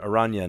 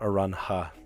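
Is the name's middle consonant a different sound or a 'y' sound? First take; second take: y sound; different. First: The middle consonant is a y-like sound. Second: The middle consonant is not a y-like sound. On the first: The speaker calls it right. "pronounce your name correctly" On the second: The speaker calls it wrong. "not Aranha"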